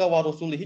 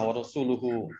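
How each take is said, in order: First: The word is said with i vowels, ending -ihi. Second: The word is said with u vowels, ending -uhu. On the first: God is free from the polytheists and from his messenger. The speaker calls it wrong. "waw atopnya ke warusulihi jadi ke al musyrikina" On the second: The messenger is also free from the polytheists. The speaker calls it right. "boleh dibaca dengan doma"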